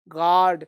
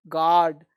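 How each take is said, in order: Both takes have the same delivery.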